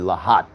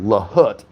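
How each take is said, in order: First: The second vowel sounds like 'ah'. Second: The second vowel sounds like 'uh'. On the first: The speaker calls it right. "It should be L A H A T" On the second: The speaker calls it wrong. "on Lahut, it's actually Lahat"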